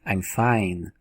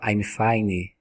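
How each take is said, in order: First: The word ends cleanly on the n sound. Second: The word ends with an added i-like vowel.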